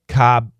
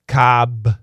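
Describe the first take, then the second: First: The final consonant is stopped, not released. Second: The final consonant is fully released.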